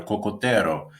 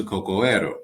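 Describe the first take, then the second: First: Cocotero in Spanish sounds, the t clear, the r a quick tap; smooth Spanish word. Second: Cocoero with no t, the two o's running straight into ero; awkward wrong form. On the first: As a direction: say cocotero so it rolls off the tongue, co-co-te-ro. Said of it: "it just rolls off your tongue a lot better". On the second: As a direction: say cocoero as the clumsy non-Spanish version, co-co-e-ro. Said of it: "as opposed to cocoero". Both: Shown as a demonstration.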